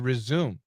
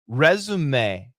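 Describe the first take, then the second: First: The word is said with an English-style pronunciation. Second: The word is said with a French-style pronunciation. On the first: The speaker calls it wrong. "We don't say resume" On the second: The speaker calls it right. "we use an Italian uh, French pronunciation"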